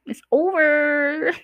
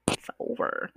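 First: Drawn-out high "it's over". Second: Whispered "it's over". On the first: Telling exes to drop it, drawn out high. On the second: Telling exes it's done, in a whisper. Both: Real, not acted.

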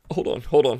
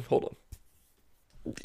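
First: Mock choked-up. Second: Whispered hold on, as if too choked to speak; mock sobbing whisper. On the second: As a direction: fake tearful whisper. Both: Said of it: "I choked up there".

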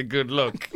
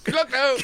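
First: Put-on dropped New Jersey accent. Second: Put-on high, lilting Irish accent. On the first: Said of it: "my New Jersey accent was perfect until I had to say". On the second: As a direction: say it like a cheery Irishman. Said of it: "I just went pure Irish".

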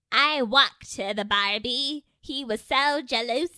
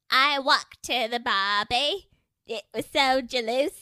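First: A loose, hammed-up Scottish accent, higher and louder; a playful attempt at Scottish that barely lands; bad Scottish accent. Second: A mock British voice that sounds like her Scottish; bad British accent. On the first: Showing friends her Scottish accent, a hammed-up bad Scottish. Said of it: "that was my Scottish". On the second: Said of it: "here's my British".

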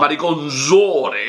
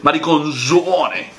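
First: Mariconzone said slowly with Italian stress on -zo-; mariconzone, slow, Italian style; Italian pronunciation. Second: Mariconzone slow, stressed on -zo-, Italian style; mariconzone, drawn out and Italian; Italian pronunciation. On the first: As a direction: draw out mariconzone like an Italian word. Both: Shown as a demonstration. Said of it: "la pronunciación del italiano".

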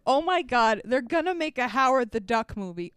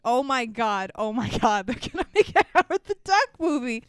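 First: Mild, disbelieving shock; retold shock. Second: Retold shock. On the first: Babbling to a friend in the theater, mildly shocked. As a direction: repeat it as if stunned, only lightly acted. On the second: Babbling over and over to a friend, mounting mock shock. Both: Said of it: "I was in shock".

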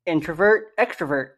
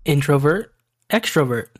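First: Introvert and extrovert with a reduced middle vowel, "in-truh-vert"; rival pronunciation. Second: Introvert and extrovert with a clear O in the middle, "in-tro-vert"; own pronunciation. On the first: Host answering with his pronunciation in a debate, reduced "truh" syllables. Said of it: "how you are supposed to pronounce". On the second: Co-host giving his pronunciation for a listener debate, clear "tro" syllables. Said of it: "please give us the enunciation". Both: Shown as a demonstration.

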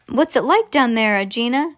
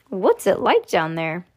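First: Lightly acted call down a hole; mild storybook holler, questioning. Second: Said in the usual way. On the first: A narrator's reading. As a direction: call to someone below. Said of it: "he called out".

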